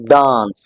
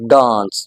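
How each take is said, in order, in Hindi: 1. इसमें लंबे स्वर के साथ ब्रिटिश लहजा है। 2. इसमें लंबे स्वर के साथ ब्रिटिश लहजा है।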